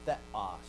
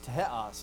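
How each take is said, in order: First: The word begins with a th sound. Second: The word begins with an aspirated t sound. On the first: This is the traditionally taught pronunciation. The speaker calls it wrong. "not theos" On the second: This is how it was said in ancient times. The speaker calls it right. "It was teos, not theos. It was an alveolar aspirate"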